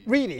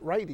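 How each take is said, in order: First: The first vowel sounds like 'ee'. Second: The first vowel sounds like 'eye'. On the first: The speaker calls it right. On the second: The speaker calls it wrong.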